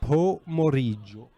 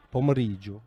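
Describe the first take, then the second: First: Pomeriggio drawn out slowly, syllable by syllable for the listener; slowed-down repeat. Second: Said in the usual way. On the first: Shown as a demonstration. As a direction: spell out Pomeriggio slowly for a confused friend.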